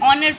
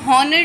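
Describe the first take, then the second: First: The word begins with a vowel sound. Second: The word begins with an h sound. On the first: The speaker calls it right. "ऑनर पढ़ते हैं" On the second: The speaker calls it wrong. "इसको हॉनर नहीं"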